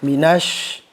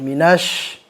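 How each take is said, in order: Both takes have the same delivery.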